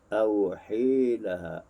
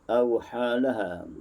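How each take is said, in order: First: The long vowel is tilted toward 'e'. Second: The long vowel is an open 'a'. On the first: "dibaca dengan imalah" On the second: "biasa kita baca melalui riwayat Hafs Al-Asim"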